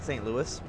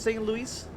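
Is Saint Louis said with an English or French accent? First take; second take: English; French. First: It is said with a plain English accent. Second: It is said with a posh French accent. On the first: This is how the name is usually said. "I know it's pronounced like Saint Louis" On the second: The city was once French territory. "I'm going to pronounce it with a kind of posh French accent"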